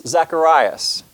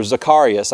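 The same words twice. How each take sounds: First: Zacharias as zak-uh-RYE-us; first pronunciation. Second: Zacharias as zuh-KAR-ee-us; alternative pronunciation. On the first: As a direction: stress the RYE in Zacharias, long i. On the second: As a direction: stress the KAR in Zacharias, then ee-us. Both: Shown as a demonstration. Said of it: "not sure how you pronounce that".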